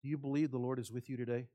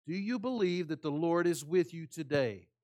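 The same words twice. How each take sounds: First: Said in the usual way. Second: "you" pressed and falling at the end; repeated with stress. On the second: Shown as a demonstration. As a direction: ask again, hitting "you" harder.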